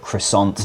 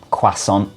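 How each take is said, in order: First: Croissant as kruh-sont, with a sounded r; plain Anglicised croissant, hard t at the end; Aussie pronunciation. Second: Croissant as kwa-son, the 'r' nearly gone; French-style British pronunciation. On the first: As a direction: say croissant the Australian way, pronouncing the t. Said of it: "in Australia it'll be called". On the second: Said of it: "French pronunciation of lots of French words". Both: Shown as a demonstration.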